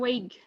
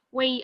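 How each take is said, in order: First: It is said with a hard g sound. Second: It is said plainly with no g sound. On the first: The speaker calls it wrong. "Nggak usah pakai G ya, ... jangan weight" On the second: The speaker calls it right. "Weight aja biasa"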